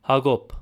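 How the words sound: It is said with a Western Armenian pronunciation. "in Western Armenian"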